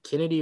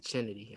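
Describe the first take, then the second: First: "Kennedy" with a hard K at the start; name with K sound. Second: "Kennedy" begun with a CH sound, like Chennedy; name with CH sound. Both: Shown as a demonstration. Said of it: "how to pronounce the name".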